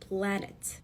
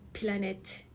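First: The p joins the l directly. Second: A vowel separates the p from the l. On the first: The speaker calls it right. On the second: The speaker calls it wrong.

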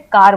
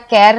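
First: The vowel is a long aa sound. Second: The vowel is an ae sound. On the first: The speaker calls it right. "हम इसे कार बोलते" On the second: The speaker calls it wrong. "हम इसे केर या कैर नहीं बोलते"

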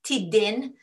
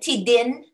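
First: The last syllable has a short 'i' sound. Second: The last syllable has a short 'i' sound.

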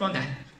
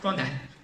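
First: The phrase is squeezed into two syllables. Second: The same.

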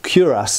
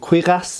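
First: It is pronounced with English sounds. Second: It is pronounced with French sounds. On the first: "if you're English or American" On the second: "in French"

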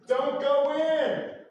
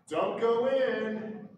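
First: The warning is said loudly and seriously. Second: The warning is said more quietly.

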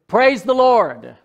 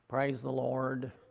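First: It is said with exuberant, lively energy. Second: It is said flatly, with little energy.

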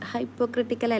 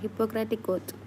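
First: It is said as hypo-cratical, with an extra ending. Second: It is said as hippo-cratic, with no extra ending. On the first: The speaker calls it wrong. "ഹൈപ്പോക്രട്ടിക്കൽ അല്ല" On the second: The speaker calls it right.

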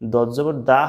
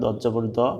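First: The vowel is a bright, open aa sound. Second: The vowel is a dark, heavy sound. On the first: The speaker calls it wrong. "দত জবর দা হওয়ার কথা ছিল" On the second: The speaker calls it right. "দত জবর দ বলতে হবে, শুধু দ"

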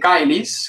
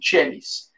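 First: It begins with a hard k sound. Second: It begins with a soft ch sound. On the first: This is the reconstructed classical pronunciation. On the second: This is the Italian or church pronunciation.

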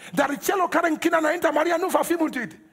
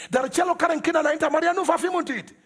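No difference in how they are said.

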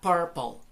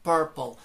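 First: The first vowel is an 'er' sound. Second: The same.

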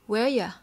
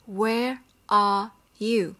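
First: The words are said fast and run together. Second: Every word is said fully and separately. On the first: "họ sẽ đọc nhanh là Where ya" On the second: "họ sẽ không sử dụng là Where are you"

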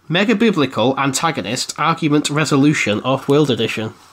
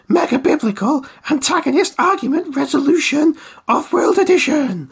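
First: It is said in the speaker's ordinary speaking voice. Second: It is said in a put-on arcade announcer voice. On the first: "I'll say that again in the normal voice" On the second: "I said it in an arcade voice"

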